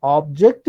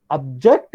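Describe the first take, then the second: First: Slow "Object" stressed on OB; OB-ject, front-stressed; noun stress. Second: Slow "object" stressed on JECT; ob-JECT, end-stressed; verb stress. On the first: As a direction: lean on the first syllable of "Object". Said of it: "noun, object is verb". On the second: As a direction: lean on the second syllable of "object". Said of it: "object is verb". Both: Shown as a demonstration.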